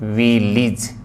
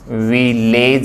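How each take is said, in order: First: The last syllable has an 'ih' vowel. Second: The last syllable has an 'eh' vowel. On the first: The speaker calls it right. "सही जो है वो फोन क्या है, ए का नहीं बल्कि ई का है" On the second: The speaker calls it wrong. "ए का नहीं"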